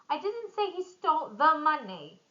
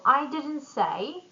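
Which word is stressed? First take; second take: money; I. First: The stress falls on the word money. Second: The stress falls on the word I. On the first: Something else was taken. "Maybe he stole something else" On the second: Someone else said it. "it would mean someone else did"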